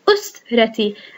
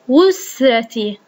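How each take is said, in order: First: The word begins with a glottal stop and short u. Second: The word begins with a w sound. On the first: The speaker calls it right. "أنا لفظت أو أو" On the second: The speaker calls it wrong. "ولم أقل وسرتي"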